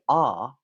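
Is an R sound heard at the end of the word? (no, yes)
no. The final R sound is not pronounced. "Notice that when I say R, I'm not making the sound"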